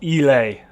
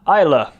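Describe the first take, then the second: First: The name is said a non-Scottish way. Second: The name is said the Scottish way. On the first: The speaker calls it wrong. "not Ely" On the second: The speaker calls it right. "The pronunciation there. Isla"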